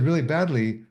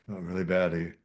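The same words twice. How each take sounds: First: Bad news said brightly, higher and louder; upbeat tone. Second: Said in the usual way. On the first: Shown as a demonstration. Student answering a greeting as an experiment, upbeat tone. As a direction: chirp it as if all were great. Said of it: "with a really sort of upbeat tone of voice". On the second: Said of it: "with a really sort of upbeat tone".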